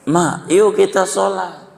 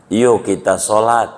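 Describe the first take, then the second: First: Yuk kita sholat pitched high like a small calf; little calf's plea. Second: Said in the usual way. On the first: Acted. Calf begs its mother to pray, high childlike voice. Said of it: "Begitu kata anak sapi". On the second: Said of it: "kata dia".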